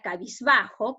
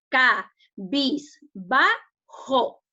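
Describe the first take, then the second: First: Said in the usual way. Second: "ca, bis, ba, jo" as four separate beats; syllable by syllable. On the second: Shown as a demonstration. Teacher splits a word for the class, "ca, bis, ba, jo" syllable by syllable. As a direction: break it into "ca", "bis", "ba", "jo" with a gap after each. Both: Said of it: "que lo dividimos en sílaba".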